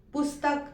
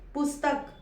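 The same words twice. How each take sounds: First: The middle s is cut short, joined to t. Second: The same.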